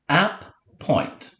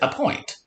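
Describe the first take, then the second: First: It is split into two separate syllables. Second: It is said smoothly as one word. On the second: "We just say a point"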